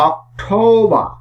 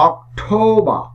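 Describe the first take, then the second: No difference in how they are said.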